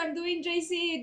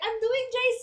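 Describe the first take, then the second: First: It is said in a sad, crying tone. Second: It is said in a cheerful, upbeat tone. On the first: The speaker is unhappy about the next stage. The speaker calls it wrong. "Don't cry" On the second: The speaker looks forward to the next stage. The speaker calls it right. "You should be like"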